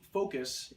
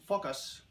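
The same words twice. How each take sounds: First: It is said with a plain American accent. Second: It is said with a French accent.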